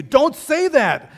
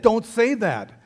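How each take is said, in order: First: Much higher and louder, slow and drawn; full yell. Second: First yell, louder but held back; retold yell. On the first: Retold or imitated. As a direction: scream it at dad at full force. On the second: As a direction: snap it at dad, not full force yet. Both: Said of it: "he yelled at me".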